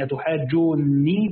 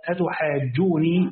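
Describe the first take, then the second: First: أتحاجوني with the nun doubled and held; the Iraqi reading of أتحاجوني with a heavy nun. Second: أتحاجوني with a single light nun, not doubled; Nafi's reading of أتحاجوني with a light nun. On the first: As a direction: say أتحاجوني slowly, leaning hard on a geminated nun. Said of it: "وقرأهما أهل العراق مثقلتين". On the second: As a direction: say أتحاجوني slowly, nun short and unstressed. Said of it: "بتخفيف النون". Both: Shown as a demonstration.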